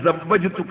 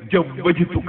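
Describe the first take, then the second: First: The word begins with a z sound. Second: The word begins with a j sound. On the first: This is the form that was taught. "ഒരു സാധാരണക്കാരൻ അയാൾക്ക് സവ്വജ്തുക എന്ന് പറഞ്ഞു കൊടുത്തു" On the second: This is how an ordinary person says it. "മൂപ്പര് ജവ്വജ്തുക എന്നേ പറയുന്നുള്ളൂ"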